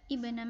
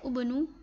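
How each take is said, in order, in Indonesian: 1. Kata ini diawali dengan vokal i. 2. Kata ini diawali dengan vokal u. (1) "tapi ibna Maryam" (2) "bukan ubnu"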